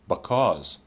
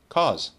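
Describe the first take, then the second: First: It is said in a somewhat reduced form. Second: It is said in its most reduced form.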